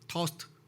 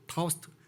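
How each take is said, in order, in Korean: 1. R 소리는 거의 안 나요. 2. R 소리는 거의 안 나요.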